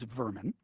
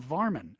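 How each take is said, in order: First: The first vowel sounds like 'er'. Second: The first vowel sounds like 'ar'. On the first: This is the standard British form. "settled itself out in standard British English as vermin" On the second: This is the regional form that came to America. "in regional dialects that came to America ... vermin became varmin"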